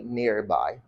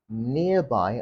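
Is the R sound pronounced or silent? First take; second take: pronounced; silent. First: The R sound is pronounced. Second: The R sound is silent.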